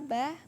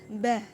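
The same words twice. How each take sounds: First: The b is light and flows smoothly. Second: The b is pressed hard between the lips. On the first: The speaker calls it right. "cukup menganu saja, mengalir saja" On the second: The speaker calls it wrong. "Tidak boleh seperti ini bacaannya"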